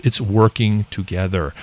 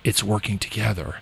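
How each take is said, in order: First: Said in the usual way. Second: Hushed, much softer confiding voice; stage whisper. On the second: Acted. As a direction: drop to a hush as if sharing a secret. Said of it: "and I whisper it".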